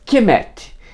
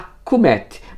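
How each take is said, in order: First: The first vowel sounds like 'e'. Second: The first vowel sounds like 'u'. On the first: This is the form scholars use today. "Kemet passou a ser a pronúncia adotada por egiptólogos" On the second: This is probably closer to the ancient pronunciation. "Provavelmente pronunciavam mais proximamente a Kumet"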